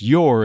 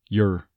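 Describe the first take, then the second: First: The word is said with a full vowel. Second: The word is said with a reduced vowel. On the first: "the word your doesn't tend to be pronounced your" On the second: "more of a throwaway word like your"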